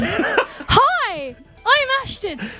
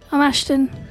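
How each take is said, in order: First: It sounds lively and keen to be here. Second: It sounds uninterested and flat.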